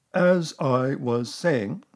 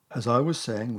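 First: Slow, loud, stern insistence; resume weightily over the interruption. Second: Said in the usual way. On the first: A narrator's reading. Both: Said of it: "said Eeyore loudly and sternly".

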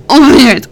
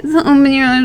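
First: Loud command. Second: Said in the usual way. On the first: Acted. Repeated command builds.

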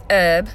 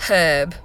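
First: "herb" with no H, as ERB; silent H. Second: "herb" with the H sounded, British. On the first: Vlogger slipping back to American mid-accent, "herb" without the H. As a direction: drop the H from "herb". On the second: Vlogger fixing it for the UK, "herb" with an H. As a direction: breathe a clear H at the start of "herb". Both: Shown as a demonstration. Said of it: "you gotta use the H".

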